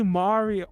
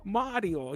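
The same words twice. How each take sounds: First: Mario with a long, loud "ah"; Italian-style Mario. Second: Mario as MAH-dyo, tapped Italian R; amateur Italian accent on Mario; attempted Italian accent. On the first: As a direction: say Mario as MAH-ree-oh, drawn out. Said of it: "listen to an Italian person". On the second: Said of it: "can't do an Italian accent". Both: Shown as a demonstration.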